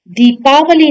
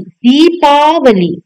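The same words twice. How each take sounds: First: दीपावली with a short first vowel, "dipaavali"; wrong pronunciation. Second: दीपावली slowly with a long ई, "deepaavali"; correct pronunciation. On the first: Teacher rejecting the short matra, wrong pronunciation. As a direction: say दीपावली quickly, short इ after द. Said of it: "दीपावली नहीं". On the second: Teacher showing the long matra, correct pronunciation. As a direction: stretch the first vowel of दीपावली. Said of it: "बड़ी ई की मात्रा लगेगी". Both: Shown as a demonstration.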